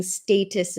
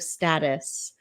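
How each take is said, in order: First: "status" said as STAY-tus, with a long A; adopted pronunciation. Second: "status" said as STAT-us, with a short A; usual pronunciation. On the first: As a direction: say "status" with the first vowel of "stay". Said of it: "start saying status instead of status". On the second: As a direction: say "status" with the first vowel of "static". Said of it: "instead of status". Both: Shown as a demonstration.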